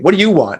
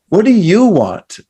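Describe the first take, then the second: First: It is said in a harsh, demanding tone. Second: It is said in a warm, caring tone.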